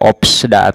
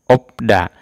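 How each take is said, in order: First: A p and an s come before da. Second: Only a p sound comes before da. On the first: The speaker calls it wrong. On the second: The speaker calls it right. "Bacanya opda"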